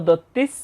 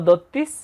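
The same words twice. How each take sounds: The two takes are said the same way.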